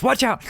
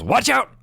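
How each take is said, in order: First: High loud shout; same urgent warning from the brush; yelled warning. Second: High loud shout; yelled warning. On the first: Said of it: "he just goes". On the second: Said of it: "he just yells". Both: Acted.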